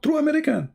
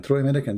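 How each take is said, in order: First: High, puffed-up "True American"; boastful imitation. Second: Said in the usual way. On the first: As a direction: parody the braggart's pride. Mimicking the debater's boast. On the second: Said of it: "You don't have an accent".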